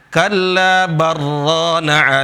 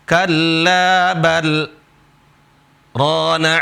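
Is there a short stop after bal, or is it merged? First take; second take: merged; stop. First: The l merges into the r without stopping. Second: There is a brief stop after bal. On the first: The speaker calls it wrong. "nggak boleh baca kalla barrana ala barra idgham" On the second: The speaker calls it right. "Caranya bacanya di sini berhenti"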